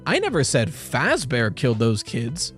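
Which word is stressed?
Fazbear. The stress is on the word Fazbear.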